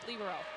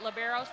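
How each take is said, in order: First: It is said the Italian way. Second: It is said the Americanized way. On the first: "the Italians pronounce it libero" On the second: "we've kind of Americanized it to pronounce it libero"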